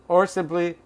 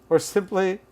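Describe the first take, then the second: Both takes have the same delivery.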